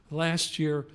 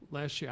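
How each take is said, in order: First: Louder, more deliberate restart; emphatic, measured restart. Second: Quick, unemphasized start; hurried and offhand; talking too fast. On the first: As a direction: start over firmly and louder. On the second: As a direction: rush into it at a fast pace. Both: Real, not acted. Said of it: "I know I'm talking too fast".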